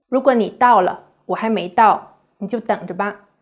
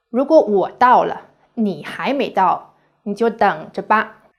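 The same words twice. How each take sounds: First: Threatening. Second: Said in the usual way. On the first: Shown as a demonstration. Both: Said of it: "Listen to these two Chinese sentences".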